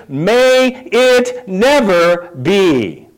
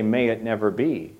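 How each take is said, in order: First: Very slow, every word weighted; drawn out, each word landing hard; most emphatic. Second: Softer, low, settled; quiet firm reply. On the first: Acted. Preacher quoting Paul's reply to sin, slow and emphatic. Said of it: "Most emphatically". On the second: Shown as a demonstration. Preacher coaching the congregation's answer, quiet and low. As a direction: say it quietly, as a calm rebuke. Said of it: "then you say".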